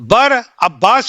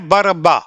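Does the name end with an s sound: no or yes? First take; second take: yes; no. First: The name ends with an s sound. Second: The name ends without an s sound. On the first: The speaker calls it wrong. "Is the wrong name" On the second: The speaker calls it right. "शब्द है बर अब्बा"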